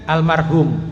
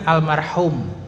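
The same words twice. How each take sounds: First: The h is a soft, plain h. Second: The h is a strong, throaty h. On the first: The speaker calls it wrong. "kalau orang kita kan almarhum, pakainya ha juga" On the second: The speaker calls it right. "yang betul kan almarhum, pakainya ha"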